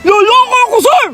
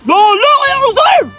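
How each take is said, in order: First: The voice is soft and gentle. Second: The voice is firm and hard. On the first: The speaker does not sound manly. The speaker calls it wrong. "Ayaw mo talagang tumigas!" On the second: The speaker sounds manly. The speaker calls it right. "Siya naman pala eh!"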